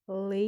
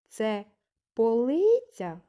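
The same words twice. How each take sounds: First: "Полиця" in three separated syllables. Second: "Це полиця?" with a loud, high, stretched middle syllable in полиця; questioning tone. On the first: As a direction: say "Полиця" as po... ly... tsia, pausing between each. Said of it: "визначимо кількість складів". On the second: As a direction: ask "Це полиця?", swelling up on LY and dropping after. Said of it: "Запитаємо". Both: Shown as a demonstration.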